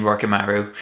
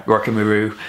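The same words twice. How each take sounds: First: "Rokimaru" with a clear "ma" in the middle, rocky-MA-roo; correct username pronunciation. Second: "Rokimaru" with the middle reduced, rocky-muh-ROO; others' mistaken pronunciation. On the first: Shown as a demonstration. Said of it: "you say my username". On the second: Retold or imitated. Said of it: "as I've heard some people say it".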